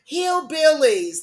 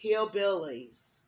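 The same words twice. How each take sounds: First: Louder, higher, slow "Hillbillies."; loud repeat. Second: Softer, slow, falling "Hillbillies."; quiet repeat. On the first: Hammering the word home to viewers, loud and slow. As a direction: punch "Hillbillies." out high and loud. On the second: Repeating her point to viewers, soft and slow. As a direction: drop your voice and let "Hillbillies." sink slowly. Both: Shown as a demonstration. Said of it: "what, I say".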